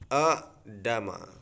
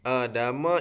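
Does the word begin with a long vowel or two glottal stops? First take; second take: two stops; long vowel. First: It begins with two glottal stops in a row. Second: It begins with one glottal stop and a long vowel. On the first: This is the original underlying form. "asalnya adalah Adama" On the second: This is the form as read in the text. "Adama ini"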